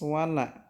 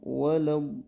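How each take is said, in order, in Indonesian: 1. Bunyi la ringan dan tipis. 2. Bunyi la berat dan tebal. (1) "La tetap dibaca tipis" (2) "ditebalkan dari la-nya"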